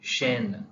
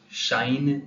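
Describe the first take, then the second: First: The vowel is a plain 'e'. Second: The vowel glides like 'ai'. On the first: The speaker calls it right. "ले and शेन" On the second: The speaker calls it wrong. "शाइन नहीं होगा"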